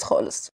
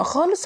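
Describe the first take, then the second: First: Much softer, trailing repeat of خالص; quiet echo. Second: Said in the usual way. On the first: A narrator's reading. Narrator echoing herself, softly. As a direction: drop خالص to a soft aside. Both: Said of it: "مش مهتم خالص خالص".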